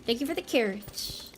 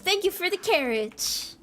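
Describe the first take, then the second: First: Small soft thanks. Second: High-pitched, put-on thank-you; playful high thanks. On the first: Pretend. Thanking a viewer for carrots, playfully soft. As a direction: drop to a soft aside. Same thanks repeated softly. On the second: Thanking a viewer for carrots, playfully high-pitched.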